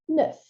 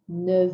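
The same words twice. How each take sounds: First: The word ends with an F sound. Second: The word ends with a V sound. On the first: "We're used to expecting that F sound at the end" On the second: "the liaison softens that F into a V"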